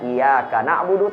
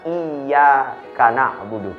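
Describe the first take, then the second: First: The y sound in iyyaka is short and single. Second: The y sound in iyyaka is held doubled. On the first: The sun we worship. The speaker calls it wrong. "tidak boleh dibaca" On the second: Only to God do we worship. The speaker calls it right. "tapi dibaca"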